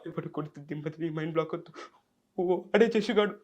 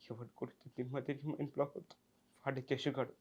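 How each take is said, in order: First: It is said in a frightened, fearful way. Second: It is said in a sad, pitiful way.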